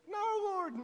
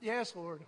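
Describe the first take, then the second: First: Higher-pitched, mild protest. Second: Lower, subdued giving in; resigned submission. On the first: Preacher answering the Lord about one sheep, mild protest. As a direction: plead against it, pitched up. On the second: Preacher yielding to the Lord about one sheep, resigned submission. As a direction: give in, dropping pitch. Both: Retold or imitated.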